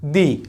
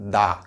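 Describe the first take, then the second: First: The vowel is a long 'ee' sound. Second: The vowel is a short, neutral 'uh' sound. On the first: The next word starts with a vowel. "Sound দিবে সেটা হচ্ছে দি" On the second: The next word starts with a consonant. "টিএইচই এর উচ্চারণ হবে দা"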